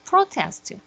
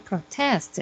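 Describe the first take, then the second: First: The stress is on the first syllable. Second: The stress is on the second syllable. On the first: The word is used as a noun. "protest 그러면 이게 명사가 되는 거죠" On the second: The word is used as a verb. "protest 하면 이가 동사가 되고"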